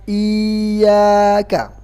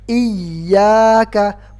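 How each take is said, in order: First: Slow "iyyaka" with the ya drawn out; wrong long reading. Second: "Iyyaka" with the ya pressed. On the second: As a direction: push the ya of "Iyyaka". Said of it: "suaranya ditekan". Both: Shown as a demonstration.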